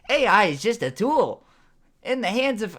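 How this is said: It is said in a put-on character voice. "That sounds more like my character Cauditus"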